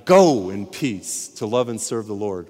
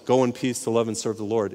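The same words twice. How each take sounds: First: "Go" punched louder, whole line slowed; emphatic dismissal. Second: Said in the usual way. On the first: Shown as a demonstration. Preacher showing how the dismissal should sound, emphatic. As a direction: send them out with force on "Go". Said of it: "It ought to be". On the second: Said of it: "it shouldn't be that way".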